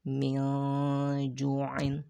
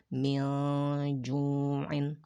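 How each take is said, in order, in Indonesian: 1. Nun dibaca samar dan disembunyikan sebelum jim. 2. Nun dibaca samar dan disembunyikan sebelum jim.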